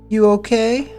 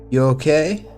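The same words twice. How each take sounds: First: It is said in a put-on voice for Jane. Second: It is said in a plain, ordinary voice.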